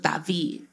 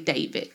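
First: The name is said with a Spanish accent. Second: The name is said with an American English accent.

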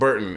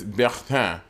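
First: The name is pronounced the English way. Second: The name is pronounced the French way. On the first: The speaker calls it wrong. "my name is not Burton" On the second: The speaker calls it right. "It's Bertin. And as my friend, you should call me by the proper pronunciation"

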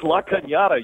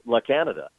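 First: The middle consonant is a 'ny' sound. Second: The middle consonant is a plain 'n'. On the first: The speaker calls it right. "It's La Cañada" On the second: The speaker calls it wrong. "It's not La Canada"

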